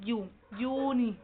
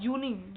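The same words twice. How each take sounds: First: यू then uni, slow, the uni sound stressed. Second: Said in the usual way. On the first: Shown as a demonstration. Teacher to pupils, stressing the uni sound. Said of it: "uni हो गया".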